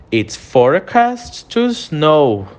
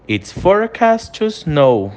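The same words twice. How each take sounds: First: Slow, careful model sentence for students to repeat; slow model phrase. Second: Said in the usual way. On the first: Shown as a demonstration. Teacher modelling for students to repeat, slow and careful. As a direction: spell out It's forecast to snow slowly and clearly. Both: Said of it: "eu quero que você repita a pronúncia".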